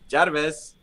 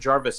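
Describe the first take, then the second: First: It is said with a Chinese accent. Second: It is said in a plain, unaccented way. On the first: The voice command succeeds. The speaker calls it right. "you have to say it with a Chinese accent" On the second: The voice command fails. The speaker calls it wrong. "it won't work"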